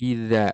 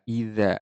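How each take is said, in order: No difference in how they are said.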